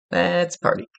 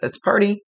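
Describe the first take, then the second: First: Said in the usual way. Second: Lighthearted and higher, imitating a party guy; bubbly party call. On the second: Relaying the grandfather's party mood, bubbly imitation. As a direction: toss it off like a cheerful spirit ready to celebrate. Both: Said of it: "very bubbly, lighthearted".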